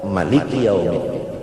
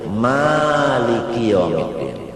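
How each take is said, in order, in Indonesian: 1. Vokal pertama dalam Maliki itu pendek. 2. Vokal pertama dalam Maliki itu panjang. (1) "qiraat Ibnu Katsir ... kada ba'alif" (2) "Qiraat Hafs sa'alif"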